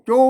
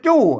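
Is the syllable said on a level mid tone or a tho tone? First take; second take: mid; tho. First: The syllable is said on a level mid tone. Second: The syllable is said on the tho tone. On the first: "จู้จู้มันเสียงสามัญ" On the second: "จู้จู้นะเสียงโทปกติ"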